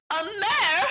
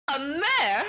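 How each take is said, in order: First: Much higher, louder indignant squeal; the insult sinks in fully; outraged shriek. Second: Higher, louder indignant question; can't believe the insult; offended surprise. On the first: Unicorn repeats the insult. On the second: Unicorn insulted at being called a mare. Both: Retold or imitated.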